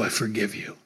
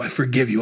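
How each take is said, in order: First: "I forgive you" dropped lower and softer, fading; soft, tender forgiveness. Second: Said in the usual way. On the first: Acted. Jesus to Peter, the third time, softly and lower. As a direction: let the last "I forgive you" sink into a soft lower hush.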